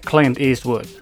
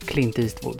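First: The names are said with an American accent. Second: The names are said with a Swedish accent. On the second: "Det är som vi uttalar artister"

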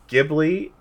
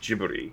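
First: It begins with a hard G sound. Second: It begins with a J sound. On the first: This is the original Italian pronunciation. "Ghibli is an Italian word with a hard G" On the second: This is the pronunciation the studio uses. "the studio goes with Ghibli. With a more of a J sound"

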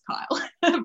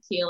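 First: The vowel sounds like the one in 'mile'. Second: The vowel sounds like the one in 'feel'. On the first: The speaker calls it right. "but it's Kyle" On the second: The speaker calls it wrong. "It looks like Keel"

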